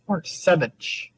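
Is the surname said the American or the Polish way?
Polish. The name is said with a Polish pronunciation. "the Polish way is"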